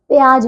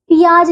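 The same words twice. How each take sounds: First: प्याज said as "pyaaj"; correct joined opening. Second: प्याज said as "piyaaj"; wrong split opening. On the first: Teacher correcting pupils, प्याज with joined py. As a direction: run p and y together in प्याज. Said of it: "प्याज होता है". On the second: Teacher showing pupils the error, प्याज split as "pi-yaaj". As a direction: add an i after the p in प्याज. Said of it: "प्याज नहीं". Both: Shown as a demonstration.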